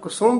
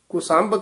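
First: The second syllable has a 'u' vowel. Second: The second syllable has an 'a' vowel. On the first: The speaker calls it right. "ਕੁਸੁੰਭ ਹੀ ਉਚਾਰਨ ਕਰਨਾ" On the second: The speaker calls it wrong. "ਆਮ ਕੁਸੰਭ ਕਹਿ ਦਿੰਦੇ ਹਨ"

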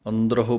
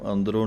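First: The word ends with an audible h before o. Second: The word ends with a nasal o, no h. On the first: The speaker calls it right. "ਹਾਹੇ ਔਂਕੜ ਦੀ ਆਵਾਜ਼ ਦੇਣੀ ਹੈ" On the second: The speaker calls it wrong. "ਇਹਨੂੰ ਅੰਦਰੋਂ ਨਹੀਂ ਕਹਿਣਾ"

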